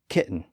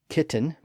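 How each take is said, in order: First: The middle T sound is dropped. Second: The middle T sound is clearly pronounced.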